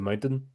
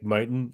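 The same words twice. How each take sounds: First: The middle T sound is clearly pronounced. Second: The middle T sound is dropped. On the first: "as opposed to" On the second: "don't use the letter T"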